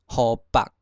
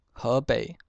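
First: 河北 as "hô-pak"; Hokkien reading. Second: Said in the usual way. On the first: Shown as a demonstration. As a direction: say 河北 in Hokkien, short 北 stopped on k. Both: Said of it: "省份从第一个".

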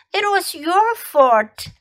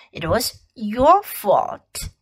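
First: High, slow accusing "your"; blaming. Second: Said in the usual way. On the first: Shown as a demonstration. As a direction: point the finger with "your". Teacher drills phrase twice.

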